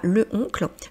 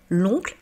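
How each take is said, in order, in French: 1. La voyelle de l'article est gardée devant oncle. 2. La voyelle de l'article tombe, elle est liée à oncle. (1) "et non pas le oncle" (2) "on dit bien l'oncle"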